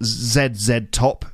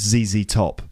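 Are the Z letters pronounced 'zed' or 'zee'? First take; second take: zed; zee. First: The Z letters are pronounced 'zed'. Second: The Z letters are pronounced 'zee'. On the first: The speaker calls it wrong. "it's not Z-Z Top" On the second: The speaker calls it right. "it's Z-Z Top"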